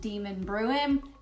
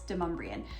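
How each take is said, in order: First: It sounds like the words demon and bruin. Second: It does not sound like demon and bruin. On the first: This is how a GPS system reads the name. The speaker calls it wrong. "still calls it Demon Bruin. That's not how you pronounce it" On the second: This is how the name is really pronounced. The speaker calls it right. "It's Demonbreun"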